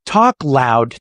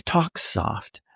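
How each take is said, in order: First: A touch louder, punched out; talking loud. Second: Hushed, softer voice; talking soft. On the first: Coach demonstrating a change of volume, talking loud. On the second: Coach demonstrating a change of volume, talking soft. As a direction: drop the volume right down. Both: Shown as a demonstration.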